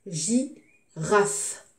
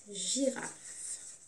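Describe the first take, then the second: First: GI, pause, RAFE; teacher sounding out "girafe" in pieces; syllable by syllable. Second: Said in the usual way. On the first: Shown as a demonstration. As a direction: split "girafe" into two separate beats. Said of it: "je découpe le mot".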